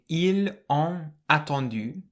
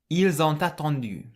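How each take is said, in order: First: The final s and t are silent. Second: The s sounds like z and t links. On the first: The speaker calls it wrong. "rather than saying" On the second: The speaker calls it right. "to make it flow better, you can say"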